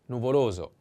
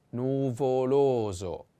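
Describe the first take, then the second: First: Said in the usual way. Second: "nuvoloso" drawn out syllable by syllable; slow model pronunciation. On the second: Shown as a demonstration. Teacher models the first adjective for learners, slow "nuvoloso". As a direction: stretch every vowel of "nuvoloso" slowly.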